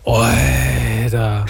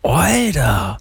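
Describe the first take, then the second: First: It sounds annoyed. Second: It sounds impressed.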